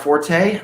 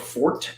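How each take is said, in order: First: It is pronounced the usual English way. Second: It is pronounced the French way.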